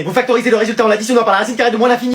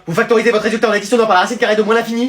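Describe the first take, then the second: First: Fast, rattled-off summary; rapid-fire lecture. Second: Fast, rattled-off explanation; rapid-fire lecture. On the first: Teacher speeds through the summary again. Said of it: "Ça y est, il recommence". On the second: Teacher rattles the lesson off too fast for the class. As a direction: rush through it without a breath. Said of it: "vous avez vu à quelle vitesse vous parlez". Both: Acted.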